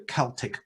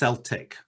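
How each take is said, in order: First: The word begins with a hard k sound. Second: The word begins with a soft s sound. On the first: It refers to the ancient cultural continuum. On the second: It refers to the Scottish football team.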